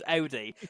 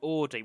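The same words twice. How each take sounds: First: Audi is pronounced with a German accent. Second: Audi is pronounced with an English accent. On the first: The speaker calls it right. "It's Audi, simple as, and that's what the Germans say as well" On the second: The speaker calls it wrong. "Or you could do the English way and say Audi"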